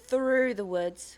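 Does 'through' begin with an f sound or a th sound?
th sound. Through begins with a th sound. "the south of England we would be like, th"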